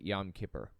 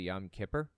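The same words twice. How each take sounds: First: It is said with a Yiddish accent. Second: It is said in a standard, non-Yiddish way. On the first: "somebody who has like a Yiddish accent" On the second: "the proper pronunciation is actually"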